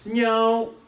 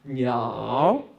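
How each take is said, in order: First: The pitch stays high and level throughout. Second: The pitch dips low and then rises. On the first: "the first tone, which is very high pitch" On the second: "The third one goes down and up again"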